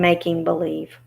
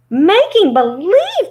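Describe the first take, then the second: First: Said in the usual way. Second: High, loud, drawn-out disbelief; shocked cry. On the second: Acted. Dorothy echoes the little man's confession, crying out shocked. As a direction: cry it out slowly, high and incredulous. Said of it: "cried Dorothy".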